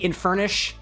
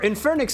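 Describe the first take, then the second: First: The name ends with a 'sh' sound. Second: The name ends with a 'ks' sound. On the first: "we could do it with an S H" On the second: "pronounce it like like the like the C K"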